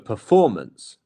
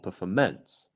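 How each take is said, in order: First: The stress is on the second syllable. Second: The stress is not on the second syllable. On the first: The speaker calls it right. "It is the second one" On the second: The speaker calls it wrong. "not performance"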